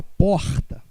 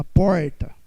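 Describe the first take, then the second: First: Said in the usual way. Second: Porta with a strong São Paulo r, said as "pórta" with the r pressed on; lower, louder Paulista "porta"; São Paulo pronunciation. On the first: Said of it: "Uma pessoa de São Paulo não fala porta". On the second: Shown as a demonstration. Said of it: "Uma pessoa de São Paulo não fala porta, fala porta".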